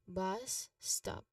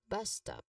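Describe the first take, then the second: First: The phrase is said slowly and carefully. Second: The phrase is said at a natural pace. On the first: "read each term slowly" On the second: "and then more naturally"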